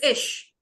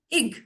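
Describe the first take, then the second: First: The ending ends in a soft ch sound. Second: The ending ends in a hard g sound. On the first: The speaker calls it right. "it is ish" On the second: The speaker calls it wrong. "I am not pronouncing as a gi, ig. No"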